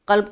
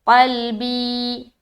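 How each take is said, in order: First: The word stops short on the 'b' consonant. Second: The word ends on a long 'ee' vowel. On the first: The speaker calls it wrong. "कल्ब कल्ब करके स्टॉप कर देंगे, नहीं" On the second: The speaker calls it right. "पूरा या मद्दा करके स्टॉप करना है"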